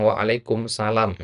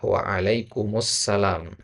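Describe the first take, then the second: First: "Waalaikumsalam" without the joined alif lam sound; wrong pronunciation. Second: "Waalaikumsalam" slow, with the alif lam joined in; correct pronunciation. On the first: Teacher shows the common incorrect pronunciation. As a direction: common Indonesian way of saying "Waalaikumsalam". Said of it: "itu kurang tepat sebenarnya". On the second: Teacher demonstrates the correct pronunciation. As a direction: say "Waalaikumsalam" carefully and slowly, stretching it. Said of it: "Yang benar adalah". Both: Shown as a demonstration.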